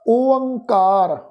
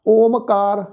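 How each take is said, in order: First: ਓਅੰਕਾਰ slowly as o-ang-kaar; correct pronunciation demo. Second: ਓਮਕਾਰ with om in place of o-ang; mispronunciation demo. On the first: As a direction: draw out ਓਅੰਕਾਰ with the nasal ang. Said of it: "ਅਸੀਂ ਇਸ ਦਾ ਉਚਾਰਨ ਕਰਾਂਗੇ". (ਹੌਲੀ, ਸ਼ੁੱਧ ਓਅੰਕਾਰ) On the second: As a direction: say ਓਮਕਾਰ quickly joined by an m. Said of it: "ਇਸ ਢੰਗ ਦੇ ਨਾਲ ਨਹੀਂ ਕਰਨਾ". (ਓਮਕਾਰ, ਮੰਮੇ ਨਾਲ ਗਲਤ ਉਚਾਰਨ) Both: Shown as a demonstration.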